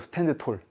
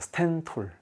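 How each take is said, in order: First: The d is pronounced, said as two words. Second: The d is dropped, run together as one word. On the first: "스탠드 톨이죠" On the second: "스탠드 톨이라고 발음하기에는 좀 그러니까 스탠톨"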